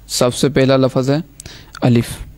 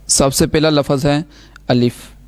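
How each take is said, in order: Both takes have the same delivery.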